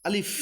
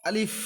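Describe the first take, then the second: No difference in how they are said.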